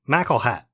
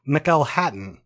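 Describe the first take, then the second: First: The name is cut short, ending in -hat. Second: The name is said in full, ending in -hattan. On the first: This is how local residents say it. "They pronounce it McElhat" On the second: This is how the spelling suggests it. "So it looks like McElhattan"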